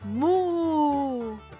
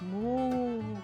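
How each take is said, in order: First: It is said loudly. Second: It is said at normal volume. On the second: "Ahora normal"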